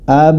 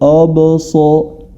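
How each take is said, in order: First: The opening vowel is light and thin. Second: The opening vowel is heavy and dark. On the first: The speaker calls it right. "yang lebih tepat adalah absarahum, ab ab" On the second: The speaker calls it wrong. "jangan sampai dibaca abso abso. Itu tidak tepat"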